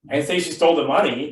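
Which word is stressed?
money. The word 'money' carries the main stress. She took something other than the money. "but maybe she stole something else"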